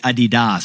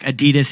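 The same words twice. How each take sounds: First: It is pronounced the German way. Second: It is pronounced the usual American way.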